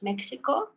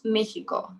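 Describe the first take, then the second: First: The middle consonant sounds like ks. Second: The middle consonant sounds like h. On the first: "in English we say it is Mexico" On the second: "Spanish, it's Mexico. ... you pronounce it as He"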